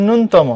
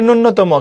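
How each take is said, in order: First: "ন্যূনতম" as nun-tomo; one closed nun in "ন্যূনতম"; সঠিক উচ্চারণ. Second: "ন্যূনতম" as nunno-tomo; ভুল উচ্চারণ. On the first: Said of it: "কিন্তু এর উচ্চারণ হচ্ছে". ("ন্যূনতম"-কে নুন-তমো বলে) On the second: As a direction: add a double n to "ন্যূনতম". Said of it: "এটা আমরা অনেকে পড়ি". ("ন্যূনতম"-কে নুন্নতম বলে) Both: Shown as a demonstration.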